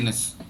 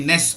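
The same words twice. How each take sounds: First: The syllable is short, quiet and weak. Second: The syllable is long, loud and prominent. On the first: The speaker calls it right. "I don't give it that much prominence" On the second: The speaker calls it wrong. "I don't say ness"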